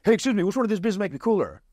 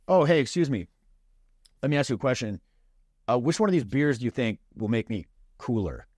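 First: Much higher and fast, words tumbling out; overeager rush. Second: Easy, unhurried "Oh, hey, excuse me", no rush; relaxed casual opener. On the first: Retold or imitated. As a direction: pop out of nowhere and blurt the whole line. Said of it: "He just pops out of nowhere". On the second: Shown as a demonstration. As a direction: open lightly, giving it room to breathe. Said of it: "It's a very casual approach".

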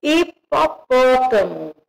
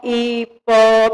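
First: "Hipopótamo" said slowly and clearly, stress on pó; teacher revealing the solved word "Hipopótamo"; correct word. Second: "hipotapó" read as jumbled syllables hi-po-ta-pó; teacher reading the mixed-up syllables "hipotapó"; scrambled syllables. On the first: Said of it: "Formei a palavrinha hipopótamo". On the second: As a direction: sound out the out-of-order pieces "hipotapó". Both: Shown as a demonstration.

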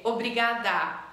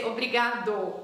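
First: Obrigada ending on an open "a". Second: Obrigado ending on a rounded "o". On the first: Teacher showing what a woman says, obrigada ending in A. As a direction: finish obrigada with an A sound. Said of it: "you finish with A". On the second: Teacher showing what a man says, obrigado ending in O. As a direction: finish obrigado with an O sound. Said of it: "you finish with O". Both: Shown as a demonstration.

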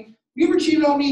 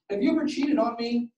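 First: Higher, louder, faster accusation; the question shot out loud and fast; accusing spouse. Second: Said in the usual way. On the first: Shown as a demonstration. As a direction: hurl it like a suspicious spouse. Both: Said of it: "Right, a spouse or somebody".

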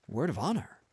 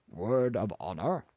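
First: "Word of honor." as a higher, quicker reply; pitched-up answer, promising on "honor"; earnest confirmation. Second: "Word of honor?" as a question, rising on "honor"; demanding confirmation with a rise on "honor". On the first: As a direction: give "Word of honor." back as a pledge. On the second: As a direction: ask "Word of honor?" as a check, voice lifting at the end. Demanding a promise, then answered. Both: Acted.

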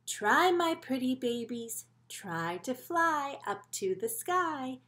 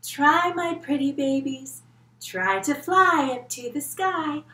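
First: Slow, sing-song mother coaxing her babies; lightly voiced proud mama bird; gentle mama bird. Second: Slow, louder proud mama calling; louder mama bird. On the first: Mama bird coaxing her babies to fly, slow sing-song. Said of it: "She says". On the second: Acted. Kids join the teacher as mama bird, louder and slow. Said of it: "Can you try flying like Mama Blue Feather".

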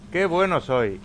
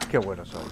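First: Higher and louder, bragging about his aim; boastful cheer. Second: Said in the usual way. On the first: Real, not acted. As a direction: crow about the shot with a loud high boast. Self-praise after a good shot. (presumiendo de su puntería, alto y agudo)

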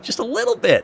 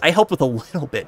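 First: Much higher, small squeaky voice; tiny high voice. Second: Said in the usual way. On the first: Shown as a demonstration. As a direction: shrink the voice to make it little.

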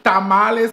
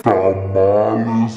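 First: Said in the usual way. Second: "Tamales" dropped much lower and stretched very slowly; a deep slow mock-dramatic "Tamales"; deep drawn-out tamales. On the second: Shown as a demonstration. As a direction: drag "Tamales" out low and slow.

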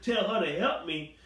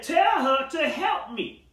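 First: Incredulous echo. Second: High, slow, indignant demand; sassy demand. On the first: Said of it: "Who she think she talking to?". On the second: Martha to Jesus, sassy and indignant. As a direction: snap it out like a put-upon sister. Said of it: "Martha had a little sassy mouth". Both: Acted.

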